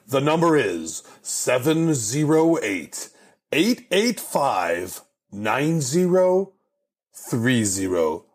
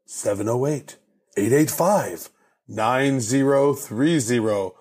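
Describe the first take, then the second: First: Number read out slowly, digit by digit. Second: Monster truck ad. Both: Shown as a demonstration. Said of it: "The secret number".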